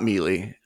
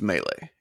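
First: The word is said like 'mee-lee'. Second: The word is said like 'may-lay'. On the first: The speaker calls it wrong. "It's not mealy" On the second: The speaker calls it right. "let's be honest. It's melee"

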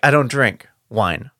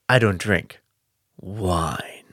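First: Wine is rushed on with no pause. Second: There is a pause before an emphasized wine.

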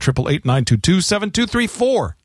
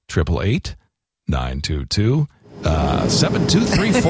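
First: The number is read at a quick pace. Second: The number is read at a slower pace.

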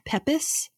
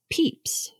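First: The name is said with two syllables. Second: The name is said with one syllable. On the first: The speaker calls it wrong. "I kept saying it as Pepis" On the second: The speaker calls it right. "it's actually pronounced Peeps"

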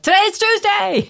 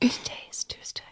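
First: It is spoken in a loud voice. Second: It is spoken in a soft whisper.

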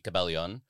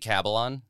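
First: It is said with a Tagalog pronunciation. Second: It is said the English way, rhyming with Babylon. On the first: "in Tagalog it would be Cabellon" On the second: "I say Cabellon. Entirely phonetic. Rhymes with Babylon"

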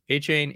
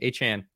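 First: The second syllable sounds like 'chain'. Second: The second syllable sounds like 'chan'. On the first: "I've said a chain basically the entire time" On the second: "Jim Nance repeatedly said A-chan"

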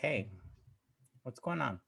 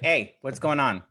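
First: The voice sounds soft and caring. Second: The voice sounds harsh and confrontational. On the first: The speaker comes across as supportive. The speaker calls it right. "Just that little tone" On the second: The speaker comes across as aggressive. The speaker calls it wrong. "Now I'm rough"

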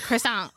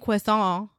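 First: It is pronounced the American way. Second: It is pronounced the French way. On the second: "I'm not saying croissant"

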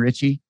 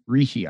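First: The middle consonant is a 'ch' sound. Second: The middle consonant is a 'sh' sound. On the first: The speaker calls it wrong. "his first name looks kind of like Richie, but that's not the pronunciation" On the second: The speaker calls it right. "Something like Rishi"

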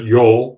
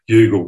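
First: It is said as one syllable, like 'yarl'. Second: It is said as spelled, like 'you-gal'. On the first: The speaker calls it right. "but Yarl" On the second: The speaker calls it wrong. "reading it as Youghal"

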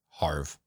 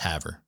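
First: The name is said as one syllable, like 'harv'. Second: The name is said as two syllables, 'hav-er'. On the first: The speaker calls it wrong. "So I pronounced it Harve" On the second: The speaker calls it right. "It's Haver"

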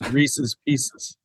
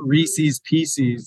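First: Reese's is said not rhyming with Pieces. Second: Reese's is said to rhyme with Pieces. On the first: The speaker calls it right. "it's Reese's Pieces" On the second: The speaker calls it wrong. "It's not Reese's Pieces"

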